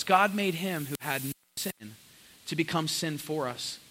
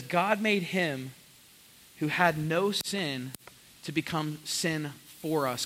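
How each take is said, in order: First: Said in the usual way. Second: Slow, deliberate verse; slow scripture reading. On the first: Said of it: "repeating verse". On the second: Acted. Pastor reading verse twenty-one to the church, slow. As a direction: read each phrase with weight. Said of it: "reading verse slowly".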